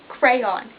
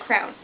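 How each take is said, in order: First: The word is said with two syllables. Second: The word is said with one syllable. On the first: The speaker calls it right. "Cray and on. Crayon. One word. Two syllables" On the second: The speaker calls it wrong. "I've heard people call it a crown"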